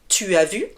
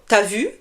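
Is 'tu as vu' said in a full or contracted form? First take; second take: full; contracted. First: The vowel of 'tu' is said in full. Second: The vowel of 'tu' is dropped and joined.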